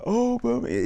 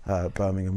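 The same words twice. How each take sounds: First: Put-on host's Brummie accent, pitched much higher; mock Brummie accent. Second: Said in the usual way. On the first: Australian host imitating a Brummie, mock Brummie accent. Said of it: "Even he knew he had to do the accent". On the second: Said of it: "He's like".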